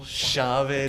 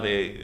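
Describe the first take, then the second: First: It is said with the local Spanish accent. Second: It is said with a Mexican Spanish accent.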